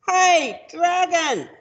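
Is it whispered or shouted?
shouted. It is shouted very loudly.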